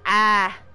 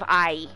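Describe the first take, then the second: First: It is said with a Southern smoothed vowel. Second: It is said with a standard gliding vowel.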